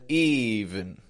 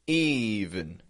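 First: The second syllable has a reduced schwa vowel. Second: The second syllable has a reduced schwa vowel.

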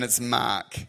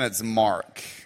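First: It is said in an Australian accent. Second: It is said in an American accent.

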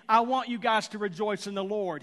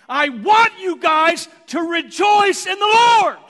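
First: It is said plainly, without extra emphasis. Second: It is said with strong, heavy emphasis.

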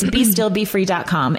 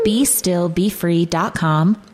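First: It is said in a plain conversational voice. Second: It is said in a polished announcer voice. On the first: "but really it's" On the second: "She turned into the radio voice"

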